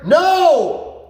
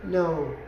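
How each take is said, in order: First: Loud, much higher "No!" with a punchy fall; emphatic no. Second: Soft, deflated "No"; a feeble no the dog ignores; limp no. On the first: Shown as a demonstration. Trainer showing exactly how he says no, loud and sharp. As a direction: snap the no out with real force. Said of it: "That's how I say it". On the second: Retold or imitated. Owners giving a weak quiet no to the dog. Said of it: "they're just like".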